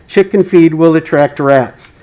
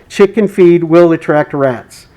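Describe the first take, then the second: First: Said in the usual way. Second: "Chicken feed will attract rats" read slowly, "Chicken" stressed with a falling end; slow down and press on "Chicken"; slow emphatic read. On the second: Shown as a demonstration. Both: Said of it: "It's important to emphasize".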